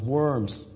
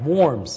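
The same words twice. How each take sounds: First: The name is said like the English word worms. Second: The name is said with its native German sound. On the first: The speaker calls it wrong. "we Anglophones sometimes mispronounce as Worms" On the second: The speaker calls it right. "Worms is the right pronunciation"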